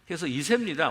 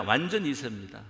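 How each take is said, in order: First: Said in the usual way. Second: 완전 hit first and firm, 세입니다 light after; stress on 완전. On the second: Shown as a demonstration. Pastor insists the youth is fully second generation, 완전 stressed. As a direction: punch 완전 to drive it home.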